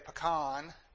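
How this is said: It is said the Texas way.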